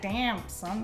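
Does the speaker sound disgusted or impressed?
disgusted. It sounds disgusted and put off. The person smells bad. The speaker calls it wrong. "not like"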